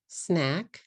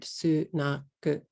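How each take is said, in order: First: "snack" in one beat, s straight into n; English SNACK, closed on the k; one-syllable English. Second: "sunaku" slowly in three beats; SNACK split su-na-ku with added vowels; katakana English. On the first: Teacher contrasting with katakana, one-syllable English. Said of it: "a one syllable word". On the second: Teacher showing the changed word, katakana English. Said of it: "into a three syllable word". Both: Shown as a demonstration.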